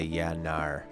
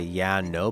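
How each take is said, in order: First: The word no is said like nar, Australian-style. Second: The word no is said with a plain vowel. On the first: "like in Australia ... but they'll say yeah, nar" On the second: "they like to say yeah, no"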